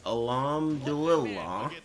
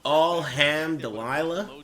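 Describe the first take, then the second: First: The ending is pronounced as dul-il-lah. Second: The ending is pronounced like the name Delilah. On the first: The speaker calls it right. "I think it's Alhamdulillah" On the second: The speaker calls it wrong. "That's not right, is it?"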